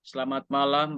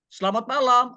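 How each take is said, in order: First: The greeting is said with a flat pitch. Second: The greeting is said with a rising pitch. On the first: The speaker calls it wrong. "jangan bilang" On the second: The speaker calls it right. "Nadanya harus naik"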